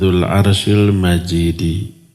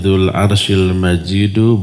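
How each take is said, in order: First: The last word ends with an 'i' vowel. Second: The last word ends with an 'u' vowel. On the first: The glory describes the throne itself. The speaker calls it wrong. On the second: The glory describes the owner of the throne. The speaker calls it right. "bacaan yang benar"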